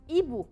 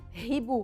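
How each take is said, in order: First: The word begins directly with a vowel. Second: The word begins with an audible h sound. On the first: The speaker calls it right. "Le H est une lettre que je ne prononce pas" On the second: The speaker calls it wrong. "ما بقول"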